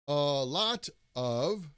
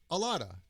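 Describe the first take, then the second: First: The middle consonant is a clear T sound. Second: The middle consonant sounds like a soft D. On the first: "instead of saying a lot of" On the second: "the T in the middle of the word sounds like D"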